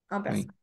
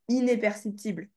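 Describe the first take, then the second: First: The prefix is said as one nasal vowel. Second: The prefix is said as an extra syllable. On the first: The speaker calls it right. "tu le prononces bien un" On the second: The speaker calls it wrong. "et pas inéperceptible"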